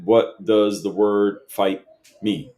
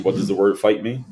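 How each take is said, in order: First: Slow, deliberate reread of the question. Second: Said in the usual way. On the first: Retold or imitated. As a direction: spell out "What does the word fight mean?" word by word, slowly. Rereading Manny's question back to him.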